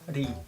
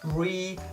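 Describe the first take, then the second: First: It starts with a sound between R and L. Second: It starts with an English R sound. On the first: The speaker calls it right. "something in between r and l" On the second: The speaker calls it wrong. "it's not like re"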